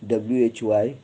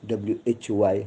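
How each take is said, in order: No difference in how they are said.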